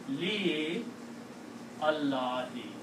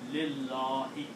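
First: The alif is pronounced as a separate vowel. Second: The alif is dropped and the sounds run together. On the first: "if you are a slow reader, you can say Li Allahi" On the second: "You have the option of dropping alif here and pronounce Lillahi"

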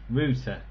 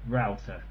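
First: Router is said the non-American way. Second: Router is said the American way, like the woodwork tool. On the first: The speaker calls it right. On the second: The speaker calls it wrong. "not router"

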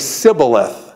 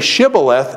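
First: The word begins with an s sound. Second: The word begins with a sh sound. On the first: The speaker is an outsider who cannot say it. "and they say sibboleth" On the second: This is the form the listener asks for. "say shibboleth"

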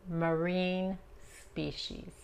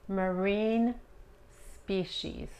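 The two takes are said the same way.

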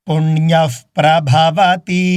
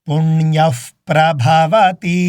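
No difference in how they are said.

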